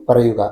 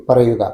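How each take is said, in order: Both takes have the same delivery.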